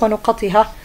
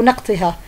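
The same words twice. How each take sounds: First: نقطها with u after the n, a after the q; plural reading nuqatiha. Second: نقطها with a after the n, no vowel after the q; alternative reading naqtiha. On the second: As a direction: say نقطها as "naq-ti-ha". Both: Shown as a demonstration. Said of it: "أو نقطها".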